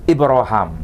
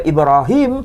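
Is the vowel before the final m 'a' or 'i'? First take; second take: a; i. First: The vowel before the final m is a. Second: The vowel before the final m is i. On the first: "Vokalnya itu vokal a antara huruf ha dan mim" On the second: "tidak dibaca"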